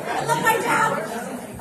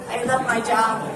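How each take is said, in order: First: Slower, savoring each word of I love my job; slow heartfelt repeat. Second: Said in the usual way. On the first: Real, not acted. Minister glowing after the song, slowly savoring it. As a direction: let the second I love my job stretch out fondly. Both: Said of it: "repeats the phrase after dancing".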